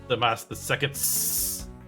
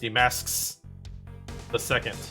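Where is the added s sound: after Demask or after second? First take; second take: after second; after Demask. First: An s sound is added after second. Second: An s sound is added after the name. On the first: The title owns the thing. The speaker calls it wrong. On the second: The name owns the thing. The speaker calls it right. "You have to put it on the on his name"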